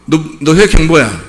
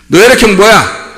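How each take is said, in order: First: Said in the usual way. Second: Higher, insistent questioning; forceful demand. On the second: Acted. Preacher demanding someone's blood type, forceful demand. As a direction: press the question hard on the listener.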